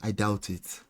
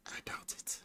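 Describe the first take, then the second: First: Soft, low and doubtful; quiet doubt. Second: Barely audible whisper; doubtful whisper. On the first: Sceptical remark, then repeated whispered. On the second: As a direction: whisper it under the breath. Sceptical remark repeated under breath. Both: Real, not acted.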